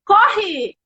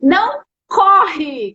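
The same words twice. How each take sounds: First: "Corre" alone, higher, falling; isolated last word. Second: "Não corre" stretched very slowly, falling on "corre"; slow drawn-out command. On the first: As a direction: say "Corre" by itself as the word that sticks. ("Corre" sozinha, mais aguda) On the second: ("Não corre" bem arrastado, caindo em "corre") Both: Shown as a demonstration. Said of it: "Qual foi a última palavra que eu falei?".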